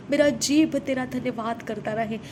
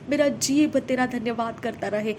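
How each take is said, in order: Both takes have the same delivery.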